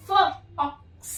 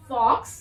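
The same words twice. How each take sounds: First: फ, then ऑक्स, as separate sounds; word broken into sounds. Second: Said in the usual way. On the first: Shown as a demonstration. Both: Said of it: "break कर करके बता रही हूँ".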